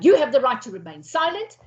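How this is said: It is said in a harsh, confrontational tone.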